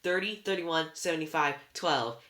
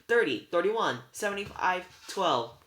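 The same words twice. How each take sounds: First: Loud wail, pitch sinking to the end. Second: High, loud called-out numbers; belted out. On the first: Anger repeating all she can tell, wailing. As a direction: wail the numbers, falling away. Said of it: "Anger wailed". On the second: Sisters giving up the secret numbers, belted out. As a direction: belt it out like a quarterback calling a play. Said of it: "They belted it out like a quarterback". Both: A narrator's reading.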